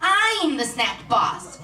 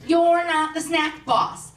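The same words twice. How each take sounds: First: I'M punched high, then falling slowly; slow mock-menacing kid, weight on "I'm"; child's bossy claim. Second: YOU'RE leaned on, high and drawn out; slow mock-menacing kid, weight on "you're"; child's stern contradiction. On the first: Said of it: "and she goes". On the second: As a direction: slowly hit "you're" as a bossy kid. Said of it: "she looked me right in the eyes".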